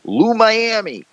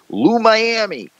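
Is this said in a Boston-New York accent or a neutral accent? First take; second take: Boston-New York; Boston-New York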